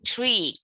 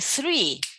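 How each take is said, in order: First: The word begins with a hard t sound. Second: The word begins with a soft th sound. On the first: The speaker calls it wrong. "they say tree" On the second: The speaker calls it right. "you say three"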